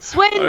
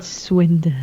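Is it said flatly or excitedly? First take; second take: excitedly; flatly. First: It is said with loud, exaggerated excitement. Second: It is said flatly, without excitement.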